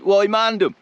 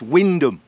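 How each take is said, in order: First: The name is said with three syllables. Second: The name is said with two syllables. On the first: The speaker calls it wrong. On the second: The speaker calls it right.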